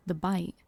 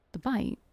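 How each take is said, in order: First: Said in the usual way. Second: "bite" lifted into a question; questioning echo. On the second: Acted. Narrator doubting the memory, questioning "bite". Repeats the remembered words as question.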